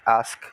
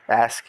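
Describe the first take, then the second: First: The word is said in a British accent. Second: The word is said in a non-British accent. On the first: "you say ask" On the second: "I ask"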